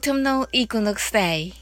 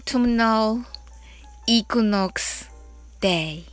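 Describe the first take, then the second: First: The phrase is said quickly. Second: The phrase is said slowly. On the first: "早く言ってみましょう" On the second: "ゆっくり一緒に練習してみましょう"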